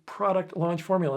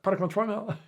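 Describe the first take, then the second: First: The phrase is said slowly and clearly. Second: The phrase is rushed and blurred together. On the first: The speaker calls it right. "slow down" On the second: The speaker calls it wrong. "it blurs right by"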